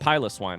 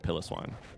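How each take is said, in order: First: The first part sounds like 'pile of'. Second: The first part sounds like 'pillow'. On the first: The speaker calls it right. "It's got to be pile of swine" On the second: The speaker calls it wrong. "it is not pronounced like pillow, I definitely called it pillow swine"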